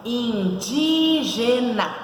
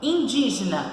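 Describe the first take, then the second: First: Indígena drawn out very slowly, in, dí, ge, na; split into syllables. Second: Said in the usual way. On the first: Shown as a demonstration. Teacher counting syllables for the class, Indígena slowly syllable by syllable. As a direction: stretch each syllable of Indígena. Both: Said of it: "São quatro sílabas".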